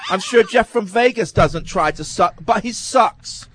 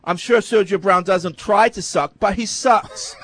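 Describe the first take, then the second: First: But he sucks said slowly, leaning on but; deadpan slow but he sucks; slow stress on but. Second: But said firmly before he sucks; stress on but. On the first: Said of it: "repeated with Jeff's name". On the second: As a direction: lean on but then he sucks. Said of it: "repeats the line as a template". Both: Shown as a demonstration.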